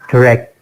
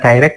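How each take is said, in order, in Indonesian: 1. Suku kata pertama terdengar seperti 'di'. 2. Suku kata pertama terdengar seperti 'dai'. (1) "yang benar ... jadi nggak die gitu" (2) "bukan direct"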